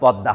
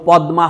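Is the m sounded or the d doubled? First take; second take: doubled d; sounded m. First: The d is doubled and the m dropped. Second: The m is clearly sounded after the d. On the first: It follows the Bengali rule. The speaker calls it right. "পদ্মা হবে।" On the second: It follows Sanskrit rather than Bengali habit. The speaker calls it wrong. "পদ্মা হবে না বাংলায়"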